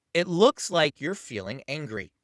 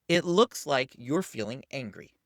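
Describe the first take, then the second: First: Slow, deliberate naming of the feeling. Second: Slow, deliberate naming again. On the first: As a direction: spell it out calmly and slowly. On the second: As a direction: keep it slow and steady. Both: Shown as a demonstration. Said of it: "simply say this".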